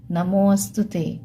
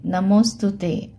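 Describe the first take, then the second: First: नमो अस्तुते with an audible "a" opening अस्तुते; avagraha as a. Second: नमो स्तुते joined, no "a" between; avagraha run together. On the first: (नमो अस्तुते में "अ" की आवाज़) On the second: (नमो स्तुते, बीच में "अ" के बिना) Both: Shown as a demonstration. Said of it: "तो अ की आवाज़ आई".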